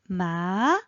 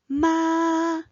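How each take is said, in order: First: The pitch rises from mid to high. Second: The pitch stays high and level.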